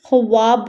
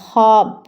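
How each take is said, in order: First: A w sound follows the kh. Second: No w sound follows the kh. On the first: The speaker calls it wrong. "ख्वाब नहीं होगा ये" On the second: The speaker calls it right. "वाव silent होगा"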